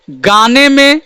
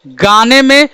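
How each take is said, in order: Both takes have the same delivery.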